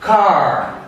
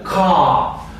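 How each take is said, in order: First: It is said with an American accent. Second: It is said with a British accent. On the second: "o britânico"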